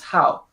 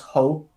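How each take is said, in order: First: It is said with a Cantonese 'au' vowel. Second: It is said with a Mandarin 'ou' vowel. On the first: "in Cantonese it's hao" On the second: "in Mandarin it's ho"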